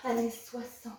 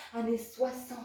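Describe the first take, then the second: No difference in how they are said.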